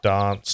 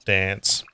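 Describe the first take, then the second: First: Dance is said the South Australian way. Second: Dance is said the Victorian way. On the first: This is how the speaker's home region says it. The speaker calls it right. "I say dance" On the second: This is how people from another region say it. The speaker calls it wrong. "not dance"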